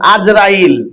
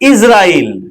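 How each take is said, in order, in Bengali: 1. নামটি 'Az' ধ্বনি দিয়ে শুরু। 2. নামটি 'Is' ধ্বনি দিয়ে শুরু। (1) "কিছু মানুষ ভুল বলছে" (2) "আজরাইল শব্দ নয়"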